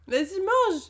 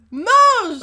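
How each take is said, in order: First: Said in the usual way. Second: Shouted order. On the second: Real, not acted.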